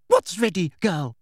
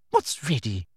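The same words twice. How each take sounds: First: Higher, more forceful demand; insistent demand. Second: Restrained demand. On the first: Umbridge shaking Hermione by the shoulders, insistent demand. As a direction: shake the answer out of her. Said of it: "demanded Umbridge, and now she grabbed". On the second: Umbridge questioning Hermione, restrained demand. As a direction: press for an answer without rising pitch. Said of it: "demanded Umbridge". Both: A narrator's reading.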